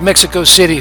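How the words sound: Mexico is pronounced with English sounds. The speaker calls it wrong.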